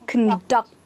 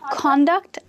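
First: The stress is on the second syllable. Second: The stress is on the first syllable. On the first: It is used as a verb. "this one here, as you would have guessed it, is a verb" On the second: It is used as a noun. "This one here is a noun"

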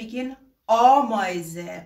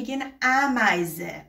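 First: The first vowel is a Persian-style A sound. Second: The first vowel is a German-style A sound. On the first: "Agar bekhoyin ba A khodemun begin" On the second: "Agar ba A begin"

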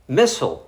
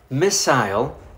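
First: It is said with American pronunciation. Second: It is said with British pronunciation. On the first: "American English" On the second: "British English"

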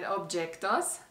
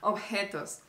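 First: The j sounds like an English j. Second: The j is a raspy, panting h sound. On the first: The speaker calls it wrong. "You said objetos" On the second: The speaker calls it right. "you pronounce it like a tired dog"

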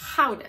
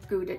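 First: It begins with a throaty, rasping G sound. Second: It begins with a plain hard G sound.

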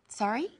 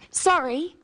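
First: The voice rises at the end. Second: The voice falls at the end. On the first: The speaker is asking the other person to repeat. "if we don't understand something or don't hear it, and we want the person to repeat what they said" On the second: The speaker is apologising. "notice how the inflection changes from when we say sorry to apologise"

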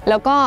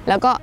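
The two takes are said the same way.

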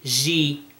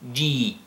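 First: The j sound is softened toward sh. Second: The j sound is a full, hard j. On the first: The speaker calls it wrong. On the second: The speaker calls it right.

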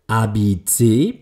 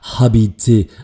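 First: The word starts directly with a vowel sound. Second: The word starts with an audible h sound. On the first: The speaker calls it right. "Es ist ein nicht ausgesprochenes H" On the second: The speaker calls it wrong. "Würde das H ausgesprochen werden, dann wäre es ja habiter, aber das ist es eben nicht"

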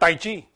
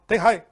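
First: The second syllable sounds like "chee". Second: The second syllable sounds like "high". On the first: The speaker calls it wrong. "the pronunciation is not Tai Chi" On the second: The speaker calls it right. "It's Tai Hai"

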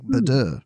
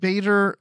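First: The name is said in a French-sounding way. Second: The name rhymes with Vader, with two syllables. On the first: "I was just thinking about the French stuff earlier. I was like" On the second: "it's Vader, but with a B"

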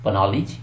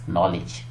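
First: An extra consonant is sounded before the n. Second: The word starts directly with the n sound. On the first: The speaker calls it wrong. "पनॉलिज या नॉलेज" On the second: The speaker calls it right. "Yes, नॉलेज"

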